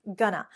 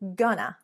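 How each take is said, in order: First: The words merge into two short syllables. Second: The same.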